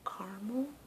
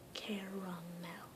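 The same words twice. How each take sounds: First: The word is said with two syllables. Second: The word is said with three syllables.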